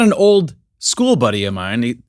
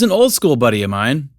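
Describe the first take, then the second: First: The pause comes after the word old. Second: The pause comes after the word school. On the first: He is an old friend from school. The speaker calls it wrong. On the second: He is an old-school kind of friend. The speaker calls it right. "It's important where we put the pause there"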